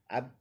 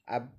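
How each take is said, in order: No difference in how they are said.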